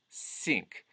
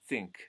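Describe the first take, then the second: First: It begins with a clear s sound. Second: It begins with a th pushed toward the teeth. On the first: "The voiceless TH turns into a s" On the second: "think would be think"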